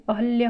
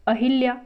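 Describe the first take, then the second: First: अहल्या with a short a after ह; correct form. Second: अहिल्या with an i after ह; incorrect form. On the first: Teacher correcting the word, अहल्या with hal. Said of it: "अहल्या होता है". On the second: Teacher showing the misspelling, अहिल्या with hil. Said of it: "ये अशुद्ध है". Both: Shown as a demonstration.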